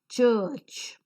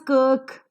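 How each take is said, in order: First: The word begins with a ch sound. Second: The word begins with a k sound. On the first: The speaker calls it right. "The same letter C in the third example is pronounced as ch" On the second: The speaker calls it wrong. "this is not pronounced as kirk"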